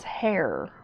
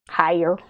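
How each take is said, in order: First: The word is said as one syllable. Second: The word is stretched into two syllables. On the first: The speaker calls it right. "hair only has one syllable" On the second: The speaker calls it wrong. "I've been catching myself saying it with two syllables"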